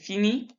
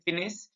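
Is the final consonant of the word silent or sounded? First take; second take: silent; sounded. First: The final s is silent. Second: The final s is pronounced. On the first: The speaker calls it right. "We say fini" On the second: The speaker calls it wrong. "We don't say finis"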